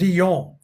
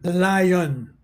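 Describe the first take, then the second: First: It is pronounced the French way. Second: It is pronounced the English way. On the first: "instead of lion" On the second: "we say lion"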